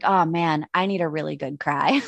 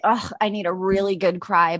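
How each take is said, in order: First: Resigned sigh. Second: Said in the usual way. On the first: Retold or imitated. Woman quoting herself when tears well up, a touch lower and wistful. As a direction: admit it like a weary little confession. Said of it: "So I'm like". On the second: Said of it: "I'm like".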